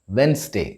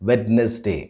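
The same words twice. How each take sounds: First: The middle D and E are silent. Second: The middle D and E are sounded. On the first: The speaker calls it right. "The D in the middle and the E in between the N and the S are silent" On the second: The speaker calls it wrong. "instead of"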